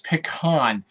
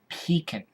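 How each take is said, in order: First: It is said without a 'pee-kin' sound. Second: It is said like 'pee-kin'. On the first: "I'm sorry, it's pecan" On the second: "almost like P E E K I N"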